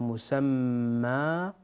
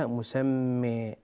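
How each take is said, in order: First: The final vowel is an open a sound. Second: The final vowel is heavily tilted toward e. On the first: The speaker calls it right. "إما أن نقرأ بالفتح مسمى" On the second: The speaker calls it wrong. "وليس مسمى"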